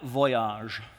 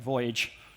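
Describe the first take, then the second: First: It is pronounced in a non-English, foreign way. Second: It is pronounced in the ordinary English way.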